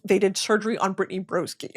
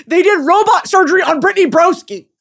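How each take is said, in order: First: Said in the usual way. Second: Loud, high-pitched excited exclamation; high, loud, laughing disbelief; amazed outburst. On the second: Real, not acted. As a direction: burst out with it, giddy and incredulous. Amazed repeat, louder and higher.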